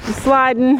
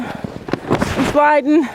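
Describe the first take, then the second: First: Said in the usual way. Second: "sliding" stretched very slow, sing-song; drawn-out sliding. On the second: Real, not acted. Slipping on ice, drawing out "sliding" very slowly. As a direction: slowly stretch out "I'm sliding" as you slip.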